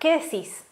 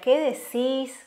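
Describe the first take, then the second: First: The words are said short, not stretched. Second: The words are stretched out a little longer. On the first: "yo te diría" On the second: "Como un poquito más largo"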